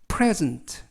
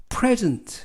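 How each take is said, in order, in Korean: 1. 강세는 첫 번째 음절에 있어요. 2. 강세는 첫 번째 음절에 있어요.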